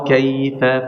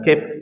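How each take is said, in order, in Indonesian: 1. Vokal terakhir diucapkan penuh setelah f. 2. Vokal terakhir dihilangkan, berakhir pada f. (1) "Jadi benar-benar harus lurus"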